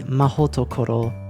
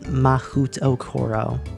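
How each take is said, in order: First: The second syllable is said as 'ho'. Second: The second syllable is said as 'hu'. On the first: The speaker calls it right. "So it would be" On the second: The speaker calls it wrong.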